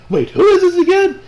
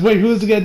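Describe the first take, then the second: First: High, louder forgetful question; confused. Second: Said in the usual way. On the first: Retold or imitated. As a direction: pitch jumps up on "who is this". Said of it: "He's like". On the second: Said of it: "he says".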